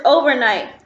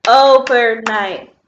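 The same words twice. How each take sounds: First: Said in the usual way. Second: "Overnight" slow and loud in three beats, o-ver-night; split into syllables. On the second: Shown as a demonstration. Teacher clapping syllables with pupils, "Overnight" in three slow loud beats. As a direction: punch out each syllable of "Overnight", slowly. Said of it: "clap with me on the syllables".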